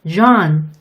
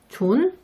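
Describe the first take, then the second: First: It starts with the English j sound. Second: It starts with the Korean ㅈ sound. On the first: The speaker calls it right. "이렇게 발음하시는 게 훨씬 원어민들이 이해하기 쉬운 소리예요" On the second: The speaker calls it wrong. "이렇게 부르지 마세요"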